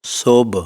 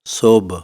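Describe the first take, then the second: No difference in how they are said.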